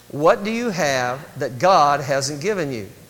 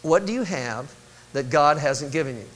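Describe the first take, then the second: First: It is said forcefully, with strong conviction. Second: It is said plainly, with mild conviction.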